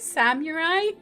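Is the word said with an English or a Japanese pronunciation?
English. It is said with an English-speaking accent. The speaker calls it wrong. "You like how I say samurai?"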